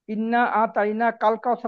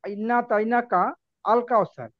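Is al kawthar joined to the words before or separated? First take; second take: joined; separated. First: Al kawthar is joined to the preceding word. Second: Al kawthar is said separately after a break.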